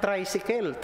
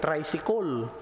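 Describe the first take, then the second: First: Tricycle said "tray-si-kel", open e in the last syllable; Cebuano-accented "traysikel". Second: Tricycle ending in a rounded "-kol"; Cebuano-accented "traysikol". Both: Shown as a demonstration. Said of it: "Paano bigkasin ng mga Cebuano".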